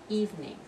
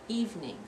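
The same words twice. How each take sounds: Both takes have the same delivery.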